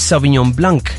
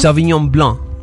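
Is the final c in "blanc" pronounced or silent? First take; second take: pronounced; silent. First: The final c of blanc is pronounced. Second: The final c of blanc is silent. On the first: The speaker calls it wrong. "pronunciando la palabra blanc como en español" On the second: The speaker calls it right. "sin la C al final"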